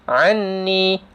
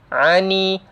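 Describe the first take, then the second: First: The doubled n is nasalized but held briefly. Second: The n is single with no held nasal. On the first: "Ada dengung tapi tak cukup dua harkat" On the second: "Dah lah hilang terus sabdunya"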